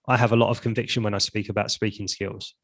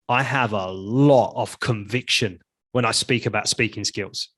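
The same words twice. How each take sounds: First: It is said flatly, without much feeling. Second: It is said with strong, felt conviction.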